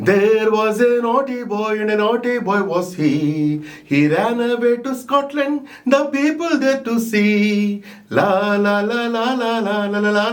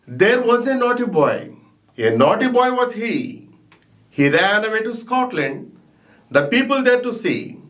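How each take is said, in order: First: Sung. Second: Measured poem recitation, line by line; reciting a poem. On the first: Teacher singing the poem for students, sung. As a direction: sing the poem as a simple tune with la la la. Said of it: "If we want to sing the song". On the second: Teacher reciting the poem to students, measured. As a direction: recite it steadily for the class. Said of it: "This is reciting". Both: Shown as a demonstration.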